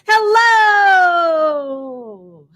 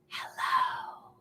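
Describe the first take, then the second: First: It is said very loudly. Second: It is said very quietly.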